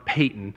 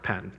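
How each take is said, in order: First: The first vowel is long, as in 'pay'. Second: The first vowel is short, as in 'pat'. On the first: It names the missionary. The speaker calls it right. "Payton's the missionary" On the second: It names a different person. The speaker calls it wrong. "It's not Patton. Patton's the general"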